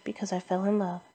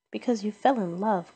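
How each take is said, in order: First: Said in the usual way. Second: Mildly growled, scornful echo; grumpy, slightly raised mocking repeat. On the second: A narrator's reading. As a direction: throw it back with a touch of a growl. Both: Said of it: "growled Scrooge".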